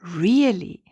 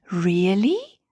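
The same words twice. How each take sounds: First: Really? with a dropping tune; falling question. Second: Rising Really? in disbelief; surprised question. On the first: Bunny repeats to Stella, falling in wonder. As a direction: let Really? fall as if thinking it over. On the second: Bunny asks Stella in surprise, rising tune. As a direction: say Really? with the pitch climbing at the end. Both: Acted. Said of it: "Shy Bunny gasped in surprise".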